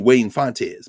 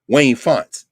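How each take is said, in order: First: The surname is said in a Latino way. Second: The surname is said in an anglicized way. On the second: "that's anglicized"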